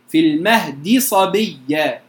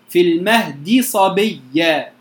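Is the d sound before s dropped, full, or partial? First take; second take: full; full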